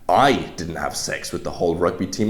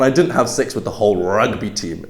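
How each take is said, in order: First: The stress falls on the word I. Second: The stress falls on the word rugby. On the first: Someone else did it. "implies that you didn't, but somebody else did" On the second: It was a different team. "maybe you had sex with all of the lacrosse team"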